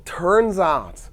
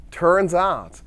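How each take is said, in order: First: Slow, stretched "turns out"; a slow, teasing "Well, turns out"; drawn out. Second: Said in the usual way. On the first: Shown as a demonstration. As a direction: draw out "turns out" for suspense. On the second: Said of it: "Well, turns out".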